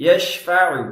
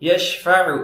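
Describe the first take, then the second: The two takes are said the same way.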